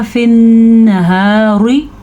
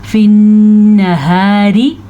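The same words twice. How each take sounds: First: फिन्नहारी with rounded, full r like "rwi"; फिन्नहारी slowly, ending on heavy r; wrong heavy ra. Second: फिन्नहारी with light r and long hummed n; फिन्नहारी, fine unrounded r; thin ra. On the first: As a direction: thicken the final r of फिन्नहारी by mistake. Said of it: "पुर पढ़ दे तो". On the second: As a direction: chant फिन्नहारी slowly, keeping "ri" thin. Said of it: "रा को बारीक पढ़ा है". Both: Shown as a demonstration.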